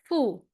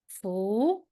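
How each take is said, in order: First: The pitch falls sharply from high to low. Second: The pitch rises from middle to high. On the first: "Last one" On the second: "Second one"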